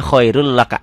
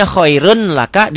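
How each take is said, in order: First: "khairul laka" with one doubled L; read without N. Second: "khairun laka" with a distinct N; written form. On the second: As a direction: sound the N of "khairun", pitched up. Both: Shown as a demonstration.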